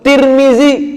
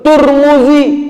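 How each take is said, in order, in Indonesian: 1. Suku kata pertama ada vokal i. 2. Suku kata pertama ada vokal u.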